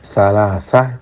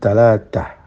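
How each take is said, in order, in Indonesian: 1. Kata ini dimulai dengan bunyi 'th' lembut. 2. Kata ini dimulai dengan bunyi 't' keras.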